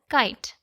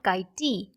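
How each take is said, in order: First: It ends with the t, with no final vowel. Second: An extra vowel sound follows the final t. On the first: The speaker calls it right. "we pronounce it as kite" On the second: The speaker calls it wrong. "not kite"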